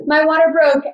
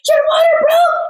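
First: Sudden, higher and louder; startled cry of news; startled announcement. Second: Very high, very loud yelling; husband screaming the news at the door; panicked scream. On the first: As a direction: blurt it out as you jolt awake. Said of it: "jolt up and I go". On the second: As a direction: scream it in a half-asleep panic. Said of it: "starts screaming at the top of his lungs". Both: Retold or imitated.

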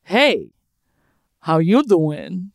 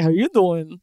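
First: Slow, slick Joey pickup line; Joey impression. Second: Joey impression. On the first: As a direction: lean in and flirt like Joey. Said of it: "I looked at him and I went". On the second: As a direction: lay on the smooth Joey charm. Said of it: "was like".

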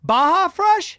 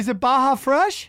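First: Baja said as "Bah-zha"; mispronounced "Baja" with zh; Baja with a j sound. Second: "Baja" with an h, asking; "Baja Fresh" as "Bah-ha Fresh", checking; "Baja" corrected, rising question; Baja said right. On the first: Real, not acted. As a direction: Baja Fresh with a French-style zh. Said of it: "I think it's pronounced Baja". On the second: Shown as a demonstration. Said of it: "pronounced Baja".

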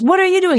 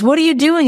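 First: Mock yell back. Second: High, loud mock yell; hammed-up road-rage shout through the window. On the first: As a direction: shout it straight back at him, hammed up. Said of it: "And he goes". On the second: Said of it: "he goes".

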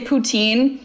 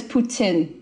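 First: Put-on "poutine" said poo-TEEN; common Canadian pronunciation. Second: "Poutine" said poo-TSIN; Quebec French pronunciation. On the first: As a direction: say "poutine" with a long "ee" in the second syllable. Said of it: "we say poutine". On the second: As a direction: say "Poutine" with a short "tsin" ending. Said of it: "the correct pronunciation is Poutine". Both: Shown as a demonstration.

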